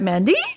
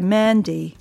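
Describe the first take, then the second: First: The final vowel is pitched high. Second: The final vowel is pitched lower. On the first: The speaker calls it wrong. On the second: The speaker calls it right.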